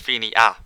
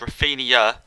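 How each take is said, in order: First: The name ends with an 'n-ha' sound. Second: The name ends with an 'ee-ah' sound. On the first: The speaker calls it wrong. "instead of Rafinha" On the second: The speaker calls it right. "some guy in the comments said it's Rafinha ... it's like an I A on the end"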